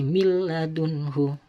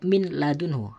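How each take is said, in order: First: The n merges fully into the l. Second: The n is pronounced before the l. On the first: The speaker calls it right. "harus dimasukkan suara nun mati ini ke lam" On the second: The speaker calls it wrong. "tidak boleh min ladunhu"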